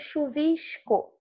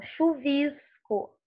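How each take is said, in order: First: "chuvisco" as chu-VISH-co, Rio hushed S; Carioca accent. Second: "chuvisco" as chu-VISS-co, São Paulo plain S; São Paulo accent. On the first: Teacher showing her own Fluminense way, Carioca sh in "chuvisco". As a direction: give "chuvisco" the Rio sh before co. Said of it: "e nós falamos chuvisco". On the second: Teacher imitating Paulistas for students, São Paulo S in "chuvisco". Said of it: "esse chiado". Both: Shown as a demonstration.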